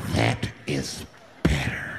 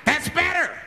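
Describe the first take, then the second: First: Very low, drawn-out words; slow way down and drop deep, mock menace; low menacing approval. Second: High, forceful exclamation; high-pitched approval. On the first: Flasher to the hushed bus, low slow menace. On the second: Acted. Flasher to the hushed bus, high-pitched approval. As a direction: call it out high as a mock madman. Man satisfied once bus goes quiet.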